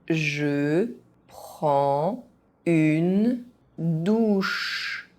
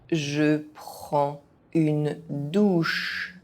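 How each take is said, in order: First: It is said very slowly, syllable by syllable. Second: It is said at an ordinary speaking pace. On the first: Each syllable can be followed. "very slowly" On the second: This is the pace learners should use. "at a normal pace"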